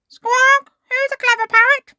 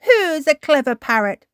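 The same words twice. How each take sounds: First: Very high, loud, quick squawky bird voice; parrot mimicry. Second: Fond cooing praise. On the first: Polly the parrot copies Granny Pig, shrieky parrot voice. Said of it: "Polly copied". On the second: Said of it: "beaming at Polly". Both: A narrator's reading.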